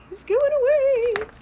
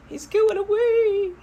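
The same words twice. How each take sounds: First: Much higher, louder dismay; a hammed-up cry of loss; higher mock wail. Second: High, gasped dismay; high mock horror; mock alarm. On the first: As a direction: push the second take up into a wail. Repeat, even higher. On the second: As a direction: say it as a shocked high-voiced owner. Gasps at the story turn.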